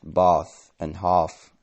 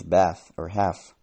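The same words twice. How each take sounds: First: "bath" and "half" with a long back "ah"; "bath and half" said the southern English way, "bahth", "hahf". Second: "bath" and "half" with the short flat A of trap; "bath or half" said with a northern short A. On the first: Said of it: "now pronounced bath and half in southern England". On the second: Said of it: "more words from short A lengthen". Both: Shown as a demonstration.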